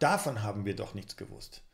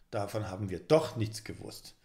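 First: The stress falls on the word davon. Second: The stress falls on the word doch.

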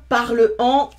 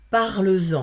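First: The words are said apart with no linking sound. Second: A z sound links the two words smoothly. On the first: The speaker calls it wrong. "c'est haché comme prononciation" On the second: The speaker calls it right. "ça sonne mieux"

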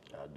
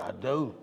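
First: It is said quietly. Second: It is said loudly.

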